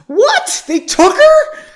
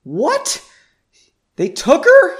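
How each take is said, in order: First: Very high, loud half-falsetto squeak; squealed disbelief, pitched way up; exaggerated squeak. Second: High, loud, shocked squeak; almost squeak it in disbelief; pitched-up shocked question. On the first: Shown as a demonstration. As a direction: overdo the squeak, playfully shocked. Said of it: "I think I almost did the squeak". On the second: A narrator's reading. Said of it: "he squeaked".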